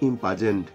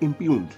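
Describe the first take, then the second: First: The word ends with a 'jent' sound. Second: The word ends with a 'yoond' sound. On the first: The speaker calls it wrong. "সেটাকে অনেকে বলে" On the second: The speaker calls it right. "Actually সেটা হচ্ছে"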